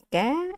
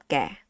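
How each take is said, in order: First: "ga" with the pitch sliding upward; rising tone. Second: "ga" low, sliding downward; falling tone. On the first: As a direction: lift "ga" from middle to high. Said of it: "You have this accent mark". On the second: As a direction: drop "ga" down to a low pitch. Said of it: "and this accent mark". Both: Shown as a demonstration.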